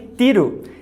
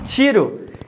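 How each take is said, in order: First: The word begins with a sound other than t. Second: The word begins with a plain t sound. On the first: "que é a mesma coisa que tiro" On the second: "se trocarmos por t, teremos tiro"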